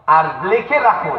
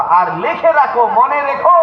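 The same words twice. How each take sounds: First: Said in the usual way. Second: "লিখে রাখো" pitched high, climbing to "মনে রেখো"; high, insistent repeat of the order; emphatic command. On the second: Acted.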